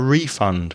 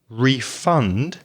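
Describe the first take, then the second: First: The stress is on the first syllable. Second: The stress is on the second syllable. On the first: It is used as a noun. "as a noun" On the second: It is used as a verb. "Stress the second syllable"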